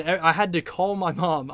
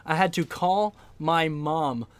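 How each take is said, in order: First: Said in the usual way. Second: Drawn-out word by word for emphasis; slow right down, pausing around each phrase; deliberate, incredulous slow repeat; slow, emphatic. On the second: Real, not acted. Repeats it slowly for comic emphasis.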